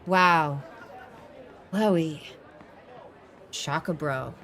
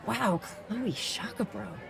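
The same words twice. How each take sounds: First: There are pauses between each part of the line. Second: The line runs straight through without pauses. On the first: The speaker calls it wrong. "we wouldn't want to go" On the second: The speaker calls it right. "you want to drive through to the end of the sentence"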